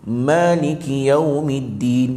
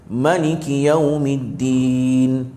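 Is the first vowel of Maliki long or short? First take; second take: long; short. First: The first vowel of Maliki is held long. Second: The first vowel of Maliki is short. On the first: This follows the Hafs from Asim reading. "Kalau kita Hafs Asim, ... dua harakat" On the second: This follows most of the other readings. "Tapi jumhur qiraat lain"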